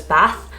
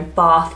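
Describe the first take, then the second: First: "Bath" with a short "a" as in cat; northern short A. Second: "Bath" with a long, open "ah", like "Bahth"; southern long A. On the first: Showing viewers the northern vowel, short "a" in "Bath". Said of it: "tell if you're northern or southern". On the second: Showing viewers the southern vowel, "Bath" said as "Bahth". The A sound. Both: Shown as a demonstration.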